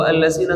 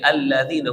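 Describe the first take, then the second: First: The middle consonant is a plain z sound. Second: The middle consonant is a voiced th sound. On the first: The speaker calls it wrong. "allazina salah" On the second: The speaker calls it right. "tapi alladzina"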